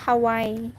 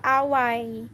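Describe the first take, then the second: First: The word begins with an H sound. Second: The word begins with a vowel, no H. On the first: "Nandito ako sa Hawaii" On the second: "Silent H po kasi"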